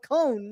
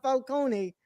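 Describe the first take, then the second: First: FALCONE ending in "cone", final E silent; correct pronunciation. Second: FALCONE with the final E sounded, "fal-CO-nee"; Italian pronunciation. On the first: Co-host explains the film's name pronunciation, Falcone with silent final E. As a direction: say Falcone in two syllables, last one like "cone". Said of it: "call him by how it's pronounced". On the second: Co-host rejects the Italian version, Falcone with sounded final E. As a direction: say Falcone in three syllables, ending "-nee". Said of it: "that's the Italian pronunciation". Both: Shown as a demonstration.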